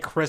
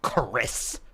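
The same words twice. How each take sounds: First: The name is said plainly, without extra force. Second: The name is said with heavy, exaggerated force. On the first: "He doesn't say Chris" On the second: "he's like Chris. ... that much emphasis on a name"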